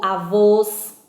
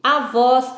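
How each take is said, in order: First: "avôs" slow and loud with closed final "ô"; "avôs" ending on a long, closed, stressed vowel. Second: "avós" slow and loud with open final "ó"; "avós" ending on a long, open, stressed vowel. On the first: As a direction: round and stretch the O in "avôs". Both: Shown as a demonstration. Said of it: "O ou os".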